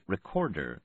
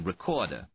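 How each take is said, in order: First: All three R sounds are carefully pronounced. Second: Only the first R sound is pronounced. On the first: The speaker is upper class. "carefully pronouncing all three R's" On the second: The speaker is working class. "pronouncing only the first R"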